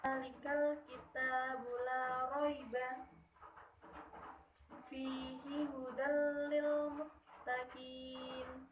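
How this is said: It pauses after 'la raiba', then runs on.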